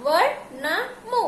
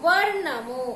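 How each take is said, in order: First: వర్ణము split into slow, separate parts; syllable by syllable. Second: Said in the usual way. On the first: Shown as a demonstration. Teacher building the word for pupils, వర్ణము sounded out slowly. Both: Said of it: "ఇప్పుడు ఎలా చదవాలి".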